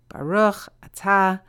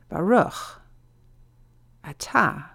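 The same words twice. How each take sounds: First: The words are rattled off quickly. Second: Each word is enunciated slowly and separately. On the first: It is a rote recitation. The speaker calls it wrong. "my friend rattled off a quick hamotzi" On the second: It is a meditative ritual. The speaker calls it right. "as you slowly enunciate each word"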